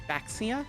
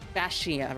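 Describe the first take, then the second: First: The name is read the plain English way. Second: The name is read the Chinese Pinyin way. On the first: The speaker calls it wrong. "Rather than actually" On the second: The speaker calls it right. "since it's using the Chinese words romanized in, I guess the word's Pinyin"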